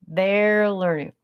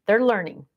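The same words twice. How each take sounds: First: THEY'RE LEARNING stretched out slowly; slow emphatic repeat. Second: Said in the usual way. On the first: Real, not acted.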